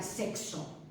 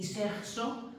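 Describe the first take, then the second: First: "sexo" as SEK-so; "sexo", both sounds of the X heard. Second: "sexo" as SEJ-so; "sexo", K turned into a J sound; softened K in sexo. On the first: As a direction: say "sexo" with a clear K before the S. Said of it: "no sabe pronunciar sexo". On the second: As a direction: say "sexo" with a throaty J before the S. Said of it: "mi madre todavía menos". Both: Shown as a demonstration.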